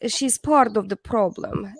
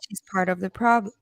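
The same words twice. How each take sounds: First: It is read in an exaggerated Dracula-style accent. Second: It is read in the speaker's ordinary voice.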